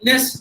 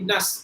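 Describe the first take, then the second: First: The vowel is a clear 'e' sound. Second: The vowel is a short, neutral 'a' sound. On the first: The speaker calls it wrong. "A as in Ellison, nest, uh, like koi nest, no" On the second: The speaker calls it right. "it should be nas, A as in amma sound"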